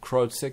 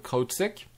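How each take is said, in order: First: The name is said with an English accent. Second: The name is said with a French accent.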